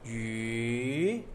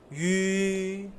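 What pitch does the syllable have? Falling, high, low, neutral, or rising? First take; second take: rising; high. First: The pitch rises from low to high. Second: The pitch stays high and level. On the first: "Second tone is from low to high" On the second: "First tone is high tone"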